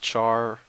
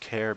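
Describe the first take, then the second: First: It does not sound like 'character'. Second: It sounds like the start of 'character'. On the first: "If it's actually pronounced char" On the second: "I use char because it's short for character"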